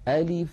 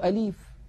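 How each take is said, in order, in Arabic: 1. الكسرة بعد اللام قصيرة ومستوية. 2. الكسرة بعد اللام تُمَدّ طويلا. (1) "هكذا من غير تكلف" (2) "يمطون كسرة اللام قليلا"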